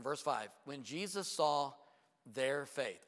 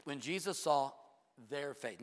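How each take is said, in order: First: "saw" drawn out, slow and weighty; slow emphatic reading. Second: "their" hit hard before "faith"; stress on THEIR. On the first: Preacher reading the key verse slowly to the church, stressing "saw". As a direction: read "when Jesus saw their faith" slowly, leaning on "saw". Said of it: "Oh, don't miss that". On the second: Preacher repeating the verse to the church, stressing "their". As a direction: point the congregation at "their". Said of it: "Are you ready?". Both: Shown as a demonstration.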